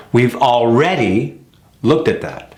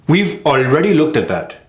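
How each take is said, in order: First: Sentence with punched REA in ALREADY, then a pause; correct stress on already. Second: Sentence with ALREADY short, weak second syllable; mis-stressed already. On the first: Coach modelling it in a sentence, stressed al-READ-y. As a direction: lean on ALREADY's second syllable. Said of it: "See the difference?". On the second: Coach mimicking the mistake, mis-stressed ALREADY. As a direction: run ALREADY into the sentence, no weight on REA. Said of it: "short word that's often missed". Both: Shown as a demonstration.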